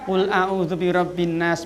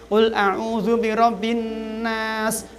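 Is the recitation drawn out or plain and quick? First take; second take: plain; drawn out. First: It is recited plainly without held or lengthened sounds. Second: It is recited with held nasals and lengthened sounds. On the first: It is said as remembrance, not formal recitation. "zikir mboten?" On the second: It follows the formal recitation rules. "Nek pakai tajwid nggih"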